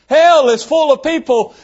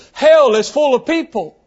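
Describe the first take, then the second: First: Hell stressed higher on the repeat; emphatic repeat. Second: Said in the usual way. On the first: Shown as a demonstration. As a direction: hit Hell harder and higher the second time.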